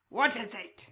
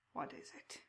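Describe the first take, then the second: First: Loud sharp what is it, the crow man flaring up; loud sudden raspy what is it; sudden creature snap. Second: Soft whispered question from the crow man; soft raspy whispered what is it; hushed creature whisper. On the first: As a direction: bark the question suddenly. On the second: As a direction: breathe the question like a secret. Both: Acted. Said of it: "speaks with a slow, raspy cadence".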